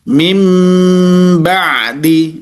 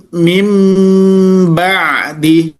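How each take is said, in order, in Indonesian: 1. Bunyi m ada sebelum b. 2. Bunyi m ada sebelum b.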